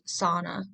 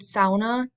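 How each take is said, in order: First: The word has an American pronunciation. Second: The word has a Finnish pronunciation. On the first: "In American culture, it's usually pronounced sauna" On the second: "which is a Finnish pronunciation"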